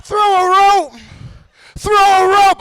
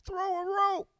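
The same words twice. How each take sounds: First: High call at full voice; echoing call. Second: Tiny high far-off voice; faint echo. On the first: Trapped voice asks for help, echo now close. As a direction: send it out high and strong, repeating. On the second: Trapped voice asks for help, faint distant echo. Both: Acted. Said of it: "First pussy echo".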